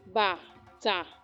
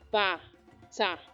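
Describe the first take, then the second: The two takes are said the same way.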